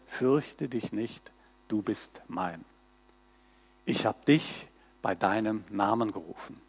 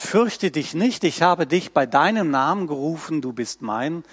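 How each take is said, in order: First: Soft recitation. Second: Said in the usual way. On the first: Shown as a demonstration. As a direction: murmur it gently to yourself. Verse as on a greeting card.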